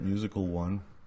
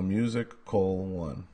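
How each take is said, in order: First: The name sounds like the single word 'musical'. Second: The name sounds like 'music' then 'Cole'. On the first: The speaker calls it wrong. "It's not musical" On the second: The speaker calls it right. "That's how you say it"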